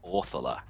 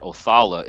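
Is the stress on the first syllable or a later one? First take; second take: first; later. First: The stress falls on the first syllable. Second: The stress falls on a later syllable. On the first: The speaker calls it right. "the emphasis is always put on the front syllables" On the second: The speaker calls it wrong. "it's not Othala"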